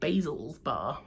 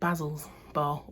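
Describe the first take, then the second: First: Basil is said with an American pronunciation. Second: Basil is said with a British pronunciation.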